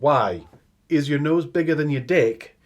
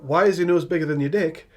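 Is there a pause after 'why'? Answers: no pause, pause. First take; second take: pause; no pause. First: There is a pause after the first word. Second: It runs straight through without a pause. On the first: It is an exclamation and then a separate question. The speaker calls it right. "a start of a question and a pause" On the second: It asks the reason his nose is bigger. The speaker calls it wrong. "Is asking him why his nose is bigger than his dick"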